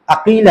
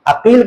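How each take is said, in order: First: अकील, the Arabic qaf clearly made; Aqeel said right. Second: अकील with a plain front k, akeel; अकील, plain Hindi k instead of qaf; Akeel said wrong. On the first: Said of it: "कि मेरा नाम". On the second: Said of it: "अकील करके बोलना". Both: Shown as a demonstration.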